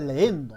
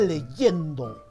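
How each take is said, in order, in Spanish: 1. Las vocales se unen sin sonido de «y». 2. Un sonido de «y» separa las vocales. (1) "¿Por qué no se dice leendo?" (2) "Se dice leyendo, con Y"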